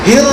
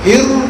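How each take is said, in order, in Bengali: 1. শব্দটি কোনো গোলাকার স্বর ছাড়া শেষ হয়। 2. শব্দটি একটি গোলাকার 'oo' স্বর দিয়ে শেষ হয়। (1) "কোন গোল হবে না" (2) "হিরু করতে গেলে মুখ গোল হয়"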